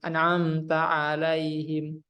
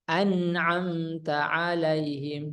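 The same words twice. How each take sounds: First: The nasal n is cut short. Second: The nasal n is held moderately. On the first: The speaker calls it wrong. "Kalau kurang seperti ini" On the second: The speaker calls it right. "diberikan secara sempurna saja hak dari huruf nunnya"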